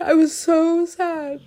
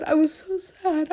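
First: Louder, slower, high sobbing; crying. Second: Crying. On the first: Crying harder while repeating she was sad. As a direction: let the sob swell on the repeat. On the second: Repeated crying line. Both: Real, not acted.

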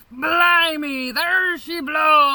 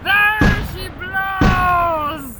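First: Higher, louder pirate shout. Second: Higher, louder, slow stretched bellow; drawn-out shout. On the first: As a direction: cry it out like a lookout. Pirate climax cry. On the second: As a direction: stretch the cry out to the horizon. Repeated, bigger. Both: Acted.

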